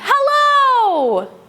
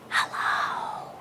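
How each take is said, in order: First: It is said very loudly. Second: It is said very quietly.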